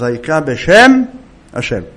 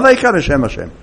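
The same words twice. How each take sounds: First: There is a pause before the last word. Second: There is no pause before the last word. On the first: The speaker calls it right. "צריך להפסיק בין בשם לבין השם" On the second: The speaker calls it wrong. "לא ככה"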